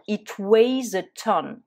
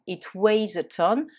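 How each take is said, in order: First: Slow, louder, words spaced out; slow model phrase. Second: Said in the usual way. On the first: Shown as a demonstration. Teacher modelling the phrase slowly and louder for students. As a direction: present it slowly for learners. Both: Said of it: "on va dire".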